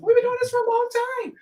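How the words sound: It is said in an imitated, put-on voice.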